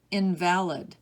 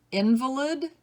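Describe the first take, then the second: First: In-VAL-id, second syllable stressed, falling. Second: IN-vuh-lid, higher, first syllable stressed. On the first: Teacher giving other pronunciation, invalid as in-VAL-id. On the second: Teacher reading word list to students, invalid as IN-vuh-lid. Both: Shown as a demonstration. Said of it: "give you both pronunciations".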